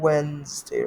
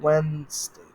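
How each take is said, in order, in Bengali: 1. মাঝের d ধ্বনিটি বাদ পড়ে। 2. মাঝের d ধ্বনিটি বাদ পড়ে।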